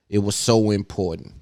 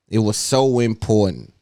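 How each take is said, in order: Both takes have the same delivery.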